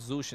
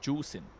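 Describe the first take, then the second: First: The name begins with a z sound. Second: The name begins with a j sound. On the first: The speaker calls it wrong. "it's not Zushin" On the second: The speaker calls it right. "That's how you say it"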